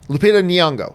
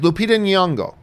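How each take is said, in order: First: The surname begins with a sound like knee. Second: The surname does not begin like knee. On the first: This is how the publicist said to pronounce it. "think of it as saying knee, like your knee" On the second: This is how some other people pronounce it. "some other people pronounce it like the first letters are in, in Nyong'o"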